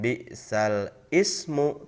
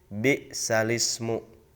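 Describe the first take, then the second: First: Ismu is said separately, starting with a glottal stop. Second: The words run together with no glottal stop. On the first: The speaker calls it wrong. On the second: The speaker calls it right. "tetapi menjadi"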